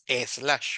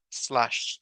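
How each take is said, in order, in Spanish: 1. Hay una vocal e extra antes de la s. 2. La palabra empieza directamente con el sonido s. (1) "ahí no hay ninguna E al principio, entonces no es slash" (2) "Sino es slash"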